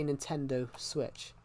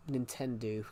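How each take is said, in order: First: Said in the usual way. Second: "Nintendo" ending in an oo, like nin-TEN-doo; quoting dad's Nintendo, said as Nin-ten-doo; dad's mispronunciation. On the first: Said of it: "so I say Nintendo Switch". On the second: Retold or imitated. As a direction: turn the final O of Nintendo into oo. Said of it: "Or as my dad calls it".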